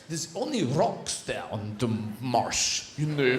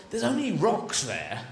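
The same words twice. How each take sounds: First: Put-on slow, low comic Russian accent. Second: Said in the usual way. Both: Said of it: "But with a Russian accent".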